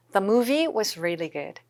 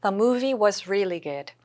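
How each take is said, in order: First: Slow repeat of the model. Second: Slow, clear model read; slow model sentence. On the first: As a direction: say it once more, just as slowly. (천천히 한 번 더) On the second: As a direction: read it slowly for learners to follow. (천천히 예문 읽기) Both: Shown as a demonstration. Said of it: "잘 요거 좀 느껴지시죠?".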